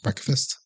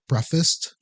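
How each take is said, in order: First: The word is said with a clear K sound. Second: The word is said without a K sound. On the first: This is how it is said now. The speaker calls it right. "So now I enunciate it a bit better" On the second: This is how it was said while growing up. The speaker calls it wrong. "growing up, I always called it breakfast"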